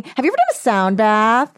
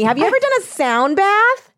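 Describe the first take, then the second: First: Suddenly loud question. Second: Higher tiny ant voice; tiny marching ant. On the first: Real, not acted. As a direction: blurt the question out loudly. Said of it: "I don't know why I said that so loud". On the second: Acted. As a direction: squeak it like a little ant. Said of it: "like an ant walking through, like, a Ralph's".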